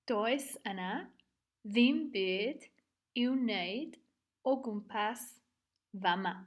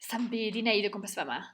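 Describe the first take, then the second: First: It is said slowly and fully. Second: It is said very fast and reduced.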